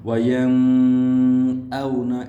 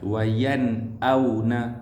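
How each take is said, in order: First: The n sound is held with a nasal hum. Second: The n sound is clear without a nasal hum. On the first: The speaker calls it wrong. "Jangan baca dengan dengung. ... itu salah" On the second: The speaker calls it right. "tanpa dengung"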